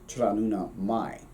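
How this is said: The last word ends in an 'ai' vowel. "the Ulster, keeps the mumma, but they change the vowels again and it becomes mai"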